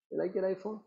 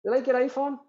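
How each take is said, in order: First: Soft repeat. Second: High teasing question. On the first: Sage repeats the question softly to his wife. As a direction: drop to a quiet follow-up. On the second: Sage quizzes his wife, high and teasing. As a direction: lift it up, a playful probe. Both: Retold or imitated. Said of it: "And he says".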